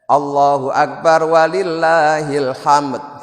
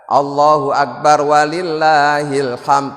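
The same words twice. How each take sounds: First: The final d is clearly released with a bounce. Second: The final d is weak and barely audible. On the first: "itu menampakkan dalnya itu sulit" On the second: "itu dalnya tidak begitu tampak"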